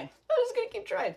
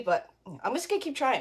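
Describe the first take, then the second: First: High sing-song repeat. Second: Said in the usual way. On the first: Pretend. Host on a timed craft event repeating it in a high playful lilt. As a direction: jump way higher, playful lilt.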